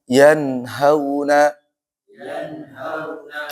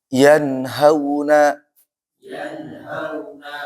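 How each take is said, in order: No difference in how they are said.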